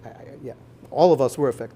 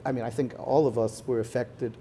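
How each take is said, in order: First: Quick, louder restatement stressing "all"; firm correction. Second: Said in the usual way. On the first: Shown as a demonstration. Correcting himself before the audience, firmly stressing "all". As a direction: push "all of us were affected" fast and certain. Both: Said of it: "not I think".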